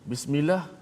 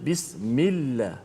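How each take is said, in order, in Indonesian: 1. Bunyi L pendek dan tunggal. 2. Bunyi L dipanjangkan dan digandakan. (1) "Bismillah bukan makna yang betul" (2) "ada sabdu atas lam"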